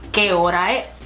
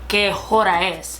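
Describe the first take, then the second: First: The H at the start of hora is silent. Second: The H at the start of hora is sounded. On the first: The speaker calls it right. "The hora is just as if you're just reading out the O R A and not the H" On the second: The speaker calls it wrong. "you wouldn't ask someone"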